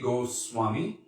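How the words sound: The middle consonant is an s sound. "And then Sanskrit would be"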